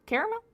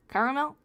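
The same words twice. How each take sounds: First: "Caramel?" with an air-like first vowel, three syllables, high rising; CARE-a-mel. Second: "caramel?" with all three syllables, CARE-a-mel, rising. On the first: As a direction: try "Caramel?" as kehr-uh-mel, asking. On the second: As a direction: ask "caramel?" as kar-uh-mel, three beats. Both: Shown as a demonstration. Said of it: "Pronounce it".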